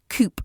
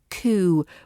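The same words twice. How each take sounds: First: The word ends with an audible p sound. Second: The word ends without any p sound. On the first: The speaker calls it wrong. "That's how you think it should be said" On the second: The speaker calls it right. "We drop that p sound"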